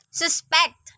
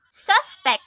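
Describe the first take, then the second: First: SusPECT, second syllable stressed; verb stress. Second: SUSpect, high stressed first syllable; noun stress. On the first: Teacher showing learners the verb Suspect, end-stressed. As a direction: say Suspect with the weight on its last syllable. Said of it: "a verb". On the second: Teacher showing learners the noun Suspect, front-stressed. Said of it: "a noun". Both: Shown as a demonstration.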